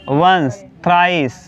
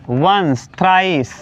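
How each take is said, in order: Both takes have the same delivery.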